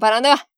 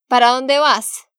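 First: It is said very fast. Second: It is said at normal speed.

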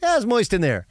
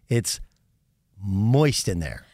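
First: It is said in a plain, innocent way. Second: It is said in a sly, nefarious way.

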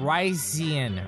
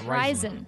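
First: The word sounds like 'rice' followed by 'Ian'. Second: The first syllable does not sound like 'rice'. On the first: The speaker calls it right. "Rice. Like rice, like what I ate a lot of. And then Ian" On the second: The speaker calls it wrong. "it's not Ryzen"

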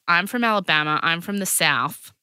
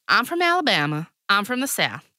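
First: It is said in the speaker's usual accent. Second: It is said in a Southern American accent.

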